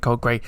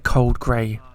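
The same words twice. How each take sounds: First: The name is said plainly, without special weight. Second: The name is said with weighty, reverent emphasis. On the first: The speaker calls it wrong. "maybe I didn't say it with reverence" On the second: The speaker calls it right. "Like a name you should know"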